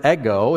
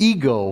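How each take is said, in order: First: "ego" said the Greek way, EH-go; Greek pronunciation. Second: "ego" said the English way, EE-go; English pronunciation. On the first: Preacher teaching the Greek word, "ego" as EH-go. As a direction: open "ego" with a short e, EH-go. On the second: Preacher showing the English derivative, "ego" as EE-go. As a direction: begin "ego" with a long ee, EE-go. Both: Shown as a demonstration. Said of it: "the word we get ego from".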